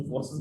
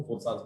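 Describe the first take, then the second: First: फोर्सेस said with a short e vowel, "for-sess"; one pronunciation. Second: फोर्सास said with a long a vowel, "for-saas"; other pronunciation. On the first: Presenter shows one way people say the brand, फोर्सेस with -sess. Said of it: "कुछ लोग इसको फोर्सेस बोलते हैं". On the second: Presenter shows the other way the brand is said, फोर्सास with long -saas. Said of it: "कुछ लोग इसको फोर्सास बोलते हैं". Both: Shown as a demonstration.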